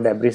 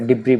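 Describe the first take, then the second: First: The word ends with an audible s sound. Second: The word ends on a vowel, no s. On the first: The speaker calls it wrong. "Mostly student इसको डेब्रिस बोलते हैं" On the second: The speaker calls it right. "इसको डिब्री बोला जाता है"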